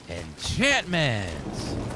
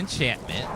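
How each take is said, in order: First: The word is said with lively, enthusiastic energy. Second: The word is said flatly, without much energy. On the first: "with more enthusiasm" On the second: "You say enchantment, and then you pause"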